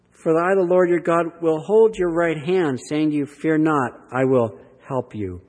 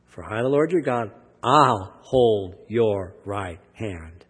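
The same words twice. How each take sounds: First: A measured, lifted reading of the verse; scripture reading. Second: Drawn out slowly, leaning on each word of "I'll hold your right hand"; slow down and let "hold your right hand" land; slow emphasis. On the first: Acted. Preacher reading God's promise aloud to the congregation, measured and lifted. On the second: Shown as a demonstration. Preacher re-reads the promise to the congregation, slow and emphatic. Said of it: "Notice that".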